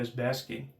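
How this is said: Basking is said with an American accent.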